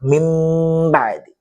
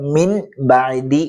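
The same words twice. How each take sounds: First: A nasal m sound comes before the b. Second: A clear n sound comes before the b. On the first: The speaker calls it right. "നൂനിനെ മീമാക്കി മറിക്കുക, ഒന്ന് മണിക്കുകയും ചെയ്യുക" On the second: The speaker calls it wrong. "ശരിക്കും നമ്മൾ മിൻ ബഅദി എന്നല്ല വായിക്കേണ്ടത്"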